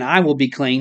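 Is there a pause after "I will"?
no. It is said as one phrase without a pause.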